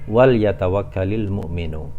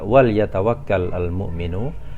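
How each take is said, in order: First: The verb ends in an i sound linking forward. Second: The verb ends on a bare consonant before the next word. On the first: "jika kita baca secara bersambung" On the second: "jika kita baca secara terpisah"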